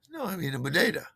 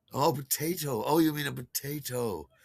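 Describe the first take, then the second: First: Bodega said with b and d in place of potato's p and t. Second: Potato said normally with a clear p and t; plain potato. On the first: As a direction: insist on bodega with a voiced b and d. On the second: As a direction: correct him with the usual potato. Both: Retold or imitated. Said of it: "We gotta get a bodega".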